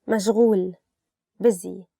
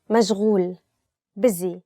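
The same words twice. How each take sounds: The two takes are said the same way.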